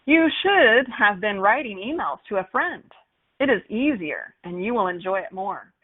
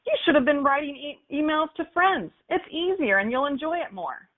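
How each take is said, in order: First: "You should have been writing", "It is easier", "you will enjoy it" with every word said in full; full forms, no contractions; uncontracted formal. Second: "It's easier" and "you'll enjoy it" run together as contractions; natural contracted speech; contracted casual. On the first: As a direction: spell out "It is" and "you will" stiffly. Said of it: "I've used contractions". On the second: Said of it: "Versus how we actually talk". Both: Shown as a demonstration.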